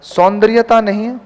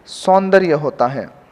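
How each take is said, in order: First: सौंदर्यता with the ता suffix; सौंदर्यता said with the extra ता; wrong form. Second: सौंदर्य said slowly, dropping low; सौंदर्य without ता, slow and final; correct form, slow and falling. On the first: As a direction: flag सौंदर्यता as the error. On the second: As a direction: lay down सौंदर्य as the answer. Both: Shown as a demonstration.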